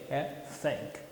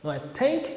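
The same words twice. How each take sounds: First: "thank" very soft, with air through the teeth; a whispered-quiet "thank" with the tongue between the teeth; correct th. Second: "tank" with a hard T; "tank" said with a clean T, as the wrong way; wrong T sound. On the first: Teacher gives the right th after the wrong ones. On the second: Teacher shows the T mistake in thank. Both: Shown as a demonstration.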